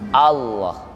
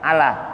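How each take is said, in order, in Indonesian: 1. L-nya tebal dan gelap. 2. L-nya tipis dan ringan. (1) "Jadi kata Allah tutup" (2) "pernah menyebut Allah biasa"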